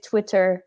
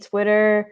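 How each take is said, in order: First: The middle t is a crisp t sound. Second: The middle t sounds soft, like a d. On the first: "les Anglais d'Angleterre, ça veut dire Twitter" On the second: "tu le prononces comme un D? / Mmh mh. ... moi, j'ai dit Twitter"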